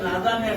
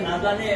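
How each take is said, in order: The two takes are said the same way.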